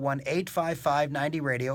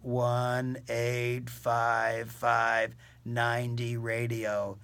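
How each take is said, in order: First: The number is said quickly. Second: The number is said slowly. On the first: The speaker calls it wrong. "I said it too fast" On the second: The speaker calls it right. "I can't say it any slower"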